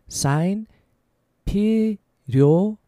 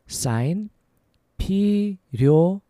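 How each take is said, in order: Both takes have the same delivery.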